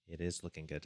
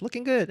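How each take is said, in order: First: Said in the usual way. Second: Squeaky high-pitched chat voice. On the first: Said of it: "repeats chat comment plainly". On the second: Retold or imitated. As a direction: read the comment in a high, excited squeak. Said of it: "James Doan Composition says".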